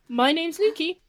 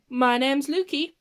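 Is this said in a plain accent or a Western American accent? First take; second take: plain; Western American. First: It is spoken in the speaker's ordinary accent. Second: It is spoken in a put-on Western American accent. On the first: "I'm going to stop using this accent now" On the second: "my flawless Western American accent"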